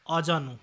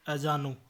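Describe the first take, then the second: First: Said in the usual way. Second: अजानू opening on short a or e; mispronunciation. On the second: Shown as a demonstration. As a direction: cut the first vowel of अजानू short. (अजानू, शुरू में छोटा अ) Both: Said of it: "अजानू नहीं".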